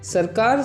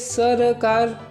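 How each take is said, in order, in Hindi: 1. बीच का स्वर हटा दिया जाता है, जिससे दो अक्षर बनते हैं। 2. पहले व्यंजन के बाद एक छोटा स्वर बना रहता है। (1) "सरकार सही प्रोनाउंसिएशन है। ... बीच वाला श्वा डिलीट किया" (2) "आप बोलेंगे सरकार, तो गलत है।"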